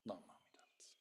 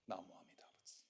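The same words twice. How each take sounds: First: Chanted, whisper "Namo Amida Butsu" fading out; chanted, breathe "Namo Amida Butsu" as a whisper. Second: Low, soft chant of Namo Amida Butsu; chanted, murmur "Namo Amida Butsu" low and soft. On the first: Amida's call fades away, whispered chant. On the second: Amida calls to the traveler, low soft chant. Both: Acted. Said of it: "the calling voice of Amida".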